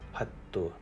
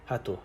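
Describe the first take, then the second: First: The middle t is held long. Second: The middle t is short. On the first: "hattu is geminated" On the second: "hatu is ungeminated"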